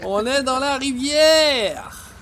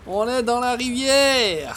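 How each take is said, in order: First: Very slow sing-song announcement; slower, more drawn out. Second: Slow drawn-out. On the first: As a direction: stretch every word even longer. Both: Shown as a demonstration.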